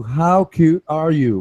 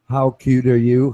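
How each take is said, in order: First: Slower and higher, drawn out; mock-sweet teasing, pitched up; teasing, capital letters. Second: Mock teasing. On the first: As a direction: stretch it out like a taunt. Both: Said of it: "Right, capital letters".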